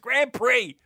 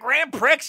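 First: The final x is silent, like pree. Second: The final x is pronounced, like pricks. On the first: The speaker calls it right. "It's Grand Prix" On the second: The speaker calls it wrong. "it's not Grand Prix"

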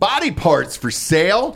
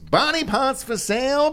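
First: It is said in his normal speaking voice. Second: It is said like an old-timey ballpark vendor.

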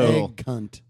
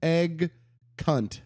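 First: The word is said quickly. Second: The word is said slowly. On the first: "Maybe I'm saying it too quickly" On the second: "Let me slow it down"

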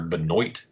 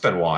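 First: The name is said with an American-style pronunciation. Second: The name is said with a French-style pronunciation. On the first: The speaker calls it wrong. "That's how a goddamn American would say it" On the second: The speaker calls it right. "I think it is Benoit"

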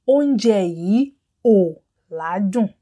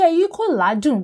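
First: The k sound before the negation is dropped. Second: The k sound before the negation is pronounced. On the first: The speaker calls it right. "You can hear that the letter ki was dropped" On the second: The speaker calls it wrong. "but it will not sound natural"

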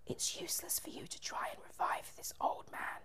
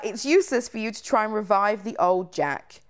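First: It is said in an evil whisper. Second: It is said louder, in a full voice.

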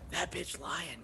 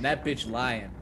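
First: It is said in a quiet whisper. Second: It is said in a normal, full voice.

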